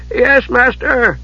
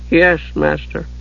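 First: High, slow, nervous answer; startled servant. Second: Subdued, slightly raised servant voice. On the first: Monk jumping at his master's call, startled. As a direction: answer high and drawn out, caught out. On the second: Monk after his master's instructions, subdued. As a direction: answer meekly, chastened. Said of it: "Bertram sounded subdued". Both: A narrator's reading.

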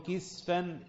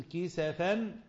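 First: كسفا said "kisfan", no vowel after the s; كسفا as two syllables, kis-fan; sukun on the sin. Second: كسفا said "kisafan", short a after the s; كسفا as three syllables, ki-sa-fan; fatha on the sin. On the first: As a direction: close the s straight onto the f in كسفا, "kis-fan". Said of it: "بكسر الكاف وسكون السين". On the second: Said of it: "بكسر الكاف وفتح السين". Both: Shown as a demonstration.

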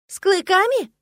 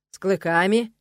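First: High, loud gasp of surprise; изумлённый ах. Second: Firm and unruffled, at a usual pitch; unperturbed confirmation. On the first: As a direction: gasp it out in shocked disbelief. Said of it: "ахнула я". (ахнуть от изумления, высоко и громко) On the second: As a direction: confirm it without any surprise. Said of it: "невозмутимо подтвердил парень". (невозмутимо, уверенно подтвердить) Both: A narrator's reading.

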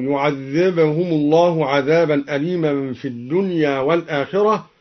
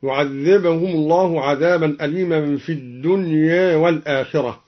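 First: Said in the usual way. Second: "الدنيا" with its last a slightly raised toward e; taqlil of final alif. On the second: Shown as a demonstration. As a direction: recite "الدنيا" nearly as dunye. (تقليل ألف "الدنيا" بين الفتح والإمالة) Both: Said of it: "بتقليل الدنيا".

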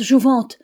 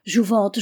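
First: Higher and louder desperate call; crying out in tears. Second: Calling his name, a touch louder; a first tearful call, still held back; crying out. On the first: Niel calling out to Jouvente lost under the waves, a louder tearful cry. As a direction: cry his name out over the storm. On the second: Niel calling the drowned Jouvente, a first mild tearful cry. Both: A narrator's reading. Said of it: "cria Niel en pleurant".

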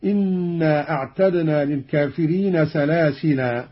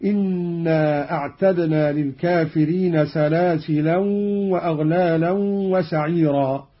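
First: "سلاسلا" ending in long open aa, no n; stop on alif. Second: "سلاسلا" with nasal ending, "salasilan", running on into "وأغلالا"; tanween when joining. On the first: Teacher demonstrates the pausal form, "سلاسلا" ending in long alif. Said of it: "وقف بالألف هكذا". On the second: Teacher demonstrates joined reading, "سلاسلا" ending in tanween. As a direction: join "سلاسلا وأغلالا" with a humming n. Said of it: "قرأ قالون بتنوين الثلاث كلمات وصلا". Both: Shown as a demonstration.

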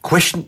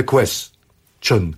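First: "question" squeezed into a single syllable, "kweschn"; one-syllable question. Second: "question" broken into two syllables, ques-tion; split last syllable. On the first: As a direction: run "question" together with no vowel in "-tion". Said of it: "jako jedna sylaba". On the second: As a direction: pause inside "question" before a separate final "-tion". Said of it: "że ta ostatnia sylaba". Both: Shown as a demonstration.

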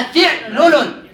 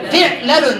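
First: «فعلل» as fi'-lu-lun, slowly; kasra then damma. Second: «فعلل» as fi'-la-lun; fatha on lam. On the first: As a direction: say «فعلل» with i on fa, u on first lam. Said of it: "والكسر فنقول". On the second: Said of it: "نعم، بالفتح". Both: Shown as a demonstration.

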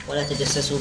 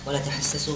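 First: تجسسوا with a voiced dj jim sound. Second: تحسسوا with a breathy throaty ḥa, no dot. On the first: Reader spells the jim version for the sheikh, clear jim. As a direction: say تجسسوا with a firm dj. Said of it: "بالجيم". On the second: Reader spells the ḥa version for the sheikh, clear ḥa. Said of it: "بالحاء المهملة". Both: Shown as a demonstration.

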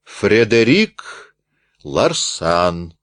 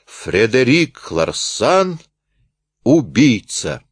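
First: Slow, rolling name; rolling repeat. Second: Slow, weighty accusation; forceful shout. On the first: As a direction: roll the name out slowly. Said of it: "раскатисто повторил Рультабиль". (раскатисто, медленно) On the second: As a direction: drive the words home slowly. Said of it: "выкрикнул с силой". (мощный выкрик, медленно) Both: Acted.

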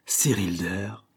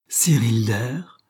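First: Slow, scornful disbelief at the name; a slow contemptuous echo of the name; scornful repeat. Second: Slow, louder scorn of the name; a slower, louder contemptuous echo; scornful repeat. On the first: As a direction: sneer the name out slowly. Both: A narrator's reading. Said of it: "d'un ton de mépris".

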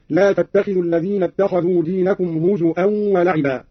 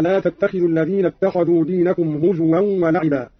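First: هزوا with a hamza in place of the w; hamza for waw. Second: Said in the usual way. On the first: Shown as a demonstration. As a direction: say هزوا as "huzu'an", with a glottal catch. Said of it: "بهمز الواو هكذا". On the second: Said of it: "قرأ قالون بهمز الواو".

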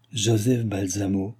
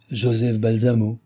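First: Slow, dreamy echo of the name; musing repetition. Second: Said in the usual way. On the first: A narrator's reading. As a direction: turn the name over slowly, lost in thought. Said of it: "répéta en rêvant le cardinal". (répété lentement, d'un ton rêveur)

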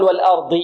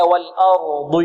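First: Quicker "والأرض" with the hamza mistakenly thickened; wrongly heavy hamza. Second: "والأرض" with thin hamza, heavy ra and dad; correct light hamza. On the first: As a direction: demonstrate the error in "والأرض", no light hamza before the ra. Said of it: "لا نقول". ("والأرض" بتفخيم الهمزة خطأً) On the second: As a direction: draw out "والأرض", keeping lam and hamza light. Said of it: "نقول هكذا". ("والأرض" بترقيق الهمزة وتفخيم الراء والضاد) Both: Shown as a demonstration.

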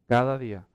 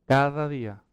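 Both takes have the same delivery.

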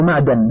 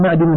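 First: معدن with a after د; fatha on dal. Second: معدن with i after د; kasra on dal. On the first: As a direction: say معدن as ma'dan. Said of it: "بفتح الدال". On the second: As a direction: say معدن as ma'din. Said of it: "ولا يقال معدن بفتح الدال". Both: Shown as a demonstration.

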